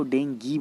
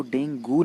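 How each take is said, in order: First: डेंगी said "den-GEE", ending in ee; correct pronunciation. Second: डेंगू said "den-GOO", ending in oo; wrong pronunciation. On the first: Teacher corrects students, डेंगी with a final ee. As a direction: end डेंगी on ee, as the proper form. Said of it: "इसको डेंगी बोलते हैं". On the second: Teacher shows students the mistake, डेंगू with a final oo. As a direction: end डेंगू on oo, as the mistaken form. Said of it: "नहीं बोलते हैं". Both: Shown as a demonstration.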